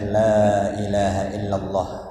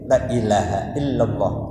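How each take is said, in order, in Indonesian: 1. Vokal pertama 'la' dibaca panjang. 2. Vokal pertama 'la' dibaca pendek. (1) "itu la-nya dengan mad" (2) "Kalau kita pendekkan menjadi lam taukid"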